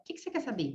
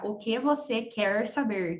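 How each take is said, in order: First: It is said fast with the words shortened. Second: Every word is said fully and carefully. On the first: "se for falar rápido, a gente fala" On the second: "olha o trabalho que dá"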